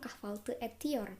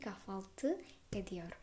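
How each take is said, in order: First: The consonant before the ending is a t sound. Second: The consonant before the ending is a d sound. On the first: The speaker calls it wrong. "bukan kahvaltı etiyor" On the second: The speaker calls it right. "tapi kahvaltı ediyor"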